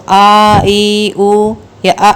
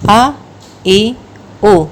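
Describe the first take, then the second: First: آ، ای، او drawn out long and slow; slow, overlong آ، ای، او as the mistake; wrongly stretched vowels. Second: Said in the usual way. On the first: Shown as a demonstration. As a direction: drag each vowel آ، ای، او out too long. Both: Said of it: "دونوں طرح سے نہیں پڑھیں گے".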